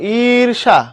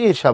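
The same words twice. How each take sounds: First: The first vowel is drawn out long. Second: The first vowel is kept short. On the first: The speaker calls it wrong. "তুমি কি ই লম্বা করো" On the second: The speaker calls it right. "তুমি ঈর্ষা বলো simply"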